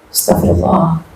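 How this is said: It is said with feeling, heartfelt.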